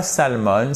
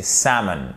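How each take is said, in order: First: "salmon" as sal-monn, L audible; wrongly sounded L. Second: "salmon" as SAM-un; silent L. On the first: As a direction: say "salmon" as written, with the L. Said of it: "Non, c'est pas salmon". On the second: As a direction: stress the first syllable of "salmon", no L. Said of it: "Vous n'entendez pas le L". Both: Shown as a demonstration.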